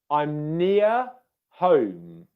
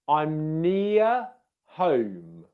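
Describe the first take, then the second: No difference in how they are said.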